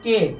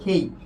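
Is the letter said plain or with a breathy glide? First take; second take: plain; breathy. First: Plain k and a steady vowel. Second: Breathy k and a gliding vowel. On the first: The speaker calls it wrong. "আমরা উচ্চারণ করছি" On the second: The speaker calls it right. "সঠিক উচ্চারণ"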